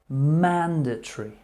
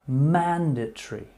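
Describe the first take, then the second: Both takes have the same delivery.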